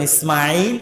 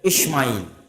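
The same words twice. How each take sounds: First: The name is said with an s sound. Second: The name is said with an sh sound. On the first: This is the correct pronunciation. "মোটা করে আমরা যেটা শুদ্ধ উচ্চারণ ইসমাঈল এইভাবে" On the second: This is the form found in their scriptures. "তাদের কিতাবে ইসমাঈল, এরকম এস এইচ দিয়ে"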